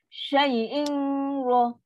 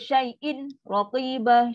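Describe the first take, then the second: First: The n is held with a nasal hum before r. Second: The n is pronounced clearly and separately before r. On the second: "Syai'in tu dia di izhar"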